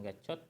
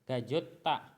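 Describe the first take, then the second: First: The middle consonant is a 'ch' sound. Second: The middle consonant is a 'j' sound. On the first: The speaker calls it wrong. "bukan gacot" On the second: The speaker calls it right. "tapi gajota"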